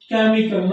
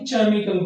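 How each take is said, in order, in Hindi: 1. पहला व्यंजन 'k' ध्वनि की तरह बोला जाता है। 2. पहला व्यंजन 'ch' ध्वनि की तरह बोला जाता है। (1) "यहाँ पर इसको आप क्या पढ़ेंगे" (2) "ना कि केमिकल पढ़ेंगे आप इसे"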